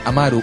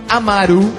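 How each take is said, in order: First: The stress falls on the middle syllable. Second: The stress falls on the final syllable. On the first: The speaker calls it right. "Amaru sin acento en la U" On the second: The speaker calls it wrong. "o Amaru, como le quieras decir"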